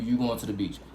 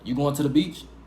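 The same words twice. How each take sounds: First: The voice falls at the end like a statement. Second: The voice rises at the end like a question. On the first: It states a fact. "I'm telling you" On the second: It asks a question. "if I want to ask the question"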